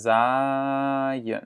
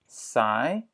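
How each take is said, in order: First: Zaaien with the z buzzing, "zaaien" voiced and vibrating; teacher shows the buzzing z of zaaien. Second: Saai with a plain hissed s that does not buzz; teacher contrasts saai with zaaien; voiceless s. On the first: Buzzing z model. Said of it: "le Z vibre". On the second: Unvoiced s model. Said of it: "Là, ça vibre pas". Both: Shown as a demonstration.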